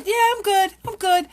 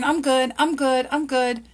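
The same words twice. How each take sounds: First: High, doubtful, half-questioning; unconvinced I'm good. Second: Said in the usual way. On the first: Retold or imitated. People answering a greeting, unconvinced and questioning. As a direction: say it like you don't believe it yourself. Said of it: "they're, like, even questioning it". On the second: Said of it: "stop saying".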